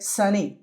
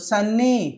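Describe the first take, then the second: First: The n sound is short, single. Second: The n sound is held long, doubled. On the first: The speaker calls it right. "ఒక్క ఎన్నే తీసుకుంటే సరిపోతుంది" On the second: The speaker calls it wrong. "ఇలా చదవకూడదు"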